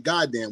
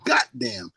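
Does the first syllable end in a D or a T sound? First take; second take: D; T. First: The first syllable ends with a D sound. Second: The first syllable ends with a T sound. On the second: "we say goddamn, G O T"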